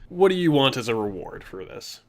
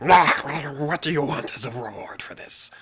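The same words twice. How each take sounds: First: Said in the usual way. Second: Raspy whispered creature voice; whispered kobold leader. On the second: Shown as a demonstration. GM voicing the kobold leader asking the hero, whispered. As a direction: hiss the question in a breathy whisper. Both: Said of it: "Well, more like".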